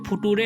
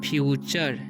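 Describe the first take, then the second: First: The middle consonant is a plain 't' sound. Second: The middle consonant is a 'ch' sound. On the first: The speaker calls it wrong. "इसे फुटूरे नहीं पढ़ना है" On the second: The speaker calls it right. "टीयू का उच्चारण जो है यहाँ पर च हो रहा है"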